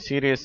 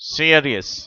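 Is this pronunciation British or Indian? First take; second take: Indian; British. First: It is said with an Indian accent. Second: It is said with a British accent. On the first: "பொதுவாக இந்தியர்கள் இதை சீரியஸ் அப்படிங்கிறாங்க" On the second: "ஆனால் ஆங்கிலேயர்கள் இதை சீரியஸ் என்று சொல்லுகிறார்கள்"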